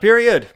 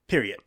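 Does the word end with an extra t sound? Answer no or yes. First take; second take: no; yes. First: The word ends without an added t sound. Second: The word ends with an added t sound. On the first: The speaker calls it wrong. "Not period" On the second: The speaker calls it right. "There's a T at the end"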